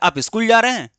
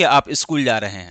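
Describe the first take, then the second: First: It is said with questioning intonation. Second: It is said with plain statement intonation. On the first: The speaker asks whether the listener is going to school. "ये question हो गया" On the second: The speaker states that the listener is going to school. "Normal वे में अगर बोलेंगे"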